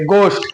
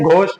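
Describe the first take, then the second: First: The word starts with a plain 'g' sound. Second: The word starts with a breathy 'gh' sound. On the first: The speaker calls it right. "बल्कि गोस्ट बोलेंगे" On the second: The speaker calls it wrong. "घोस्ट नहीं"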